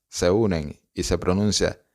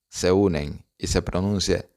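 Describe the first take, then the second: Both takes have the same delivery.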